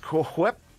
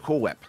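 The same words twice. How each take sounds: First: The H in 'Whip' is breathed out strongly. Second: The H in 'Whip' is dropped entirely. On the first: The speaker calls it right. "pronounce it with the H there, so over-enunciated" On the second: The speaker calls it wrong. "don't call her Cool Whip"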